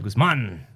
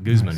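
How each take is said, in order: First: The stress is on the second syllable. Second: The stress is on the first syllable. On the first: The speaker calls it right. "I even got the accent on the A with Guzman" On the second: The speaker calls it wrong. "not Guzman"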